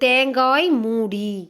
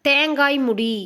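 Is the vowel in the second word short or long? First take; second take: long; short. First: The vowel in the second word is long. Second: The vowel in the second word is short. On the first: The speaker calls it right. "அது வந்து தேங்காய் மூடி" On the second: The speaker calls it wrong. "தேங்காய் முடி அப்படின்னு சொல்கிறோம்ல"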